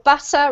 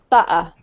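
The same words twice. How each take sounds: First: The middle consonant is a clear T. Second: The middle consonant is a glottal stop. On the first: "in the U K accent, we pronounce the T usually. So we would say butter" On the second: "replaced by um, what we call a glottal stop, ... if you're from London, you'll probably say butter"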